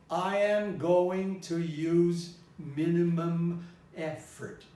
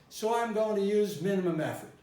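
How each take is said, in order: First: Each word is spelled out slowly and deliberately. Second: It flows in a natural, regular rhythm. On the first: The speaker calls it wrong. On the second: The speaker calls it right.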